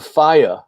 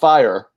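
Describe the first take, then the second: First: The final R sound is dropped. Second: The final R sound is pronounced. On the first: "There's no R at the end of the, the word" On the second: "not fire"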